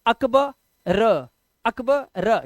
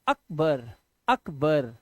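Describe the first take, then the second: First: अकबर broken as अकब, gap, then र; wrong split reading. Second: अकबर lower, in two parts, अक-बर; correct word reading. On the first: Teacher showing how we don't say it, wrong split reading. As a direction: say अकब with an open end, then a separate र. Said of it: "ऐसे तो नहीं बोलते ना". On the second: Teacher showing how you do say it, correct reading. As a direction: say अकबर softly as अक then बर, both closed. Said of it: "आप बोलते हैं". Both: Shown as a demonstration.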